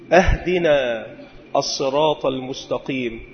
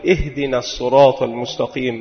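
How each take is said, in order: First: The first word begins with an 'a' vowel. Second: The first word begins with an 'i' vowel. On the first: It asks to be given the path as a gift. The speaker calls it wrong. "مع فتح الهمزة" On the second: It asks to be guided along the path. The speaker calls it right. "اهدنا بالكسر"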